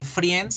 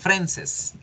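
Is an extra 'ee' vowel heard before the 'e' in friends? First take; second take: yes; no. First: An extra 'ee' vowel is sounded before the e. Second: No 'ee' vowel is sounded before the e. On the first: The speaker calls it wrong. "No vamos a decir friends" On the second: The speaker calls it right. "la I nunca suena"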